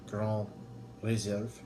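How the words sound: The name is pronounced the French way.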